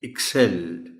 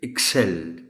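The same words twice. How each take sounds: No difference in how they are said.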